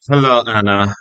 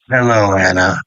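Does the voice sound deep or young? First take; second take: young; deep. First: It is said in a younger Cesar voice. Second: It is said in a deeper, older voice.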